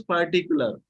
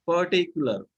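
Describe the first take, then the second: First: "particular" with R heard in first and last syllables; both Rs sounded. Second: "particular" with no R after the first vowel; Rs dropped. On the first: Teacher showing students the contrast, "particular" with both Rs. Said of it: "Here two R are there". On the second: Teacher modelling for students, "particular" without its Rs. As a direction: leave the Rs out of "particular". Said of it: "Without two R". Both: Shown as a demonstration.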